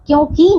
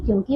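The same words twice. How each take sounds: First: क्योंकि with a long, loud "kee"; mispronounced word. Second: क्योंकि with a short, softer "ki"; correct pronunciation. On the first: Teacher shows pupils the wrong word, mispronounced. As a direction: stretch the end of क्योंकि. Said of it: "नहीं". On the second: Teacher corrects the word for pupils, properly pronounced. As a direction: keep the end of क्योंकि short. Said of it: "क्योंकि होता है". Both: Shown as a demonstration.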